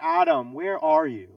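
It is said in a stern, angry tone. A father who knows his son did wrong. "we hear him say"

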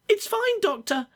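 The put-on voice is very high pitched.

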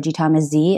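The last letter is said as zee, American-style.

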